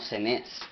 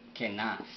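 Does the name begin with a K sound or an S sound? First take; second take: S; K. First: The name begins with an S sound. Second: The name begins with a K sound. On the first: This is how the Spanish text renders it. The speaker calls it wrong. "dice, Cenaz, no, Cenés" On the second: This is the original Hebrew pronunciation. The speaker calls it right. "pero es Kenaz"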